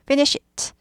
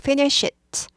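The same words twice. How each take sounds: No difference in how they are said.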